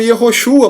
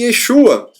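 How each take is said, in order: First: The name is said with four syllables. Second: The name is said with three syllables. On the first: This is the older form of the name. "Não é pronunciado mais como Yehoshua" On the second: This is the later form of the name. "mas sim Yeshua"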